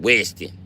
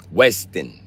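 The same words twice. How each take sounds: First: Said in the usual way. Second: "Weston" in a thick Chicago accent. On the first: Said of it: "My fault". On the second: Shown as a demonstration. Streamer catches himself saying Weston the Chicago way. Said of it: "that's that Chicago accent".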